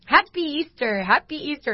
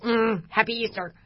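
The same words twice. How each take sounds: First: Imitating higher-pitched, cheerful Easter greeters; cheery greeting. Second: Mock-grudging greeting through clenched teeth. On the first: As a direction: chirp a holiday greeting, higher than usual. Churchgoers greet her cheerfully, retold. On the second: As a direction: force out the greeting, imitating held-back annoyance. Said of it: "like, through clenched teeth".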